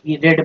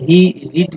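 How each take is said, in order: First: The vowel in 'read' is short, like 'red'. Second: The vowel in 'read' is long, like 'reed'. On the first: The speaker calls it right. "यहाँ ही रेड पढ़ेंगे" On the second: The speaker calls it wrong. "ही रीड नहीं"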